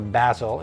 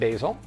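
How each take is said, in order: First: It is said in a British way. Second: It is said in an American way.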